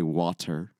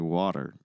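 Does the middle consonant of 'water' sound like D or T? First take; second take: T; D. First: The middle consonant is a clear T. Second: The middle consonant sounds like a D. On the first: "when we don't say water" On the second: "we say water. Like, it's almost like a D"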